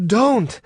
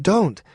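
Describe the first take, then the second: First: High, firm, commanding "Don't,"; authoritative. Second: High, pressing "Don't."; insisting, pushing back gently; insistent. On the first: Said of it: "Her voice had authority now". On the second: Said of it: "she insisted". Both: Acted.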